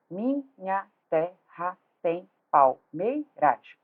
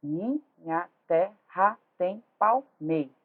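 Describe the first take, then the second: First: Teacher counting out grammatical syllables, "palmeiras" broken up to its final "ras"; slow, separate beats on each syllable, "palmeiras" in full. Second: Slow separate beats, stopping "palmeiras" on the stressed "mei"; metrical syllable count. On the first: Teacher shows students the grammatical division, every syllable separated. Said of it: "ó, sílabas gramaticais". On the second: Teacher counts metrical syllables for students, cutting "palmeiras" after "mei". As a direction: chop it into syllables and drop the "ras" of "palmeiras". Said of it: "Sílabas métricas do poema".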